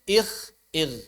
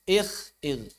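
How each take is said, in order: The two takes are said the same way.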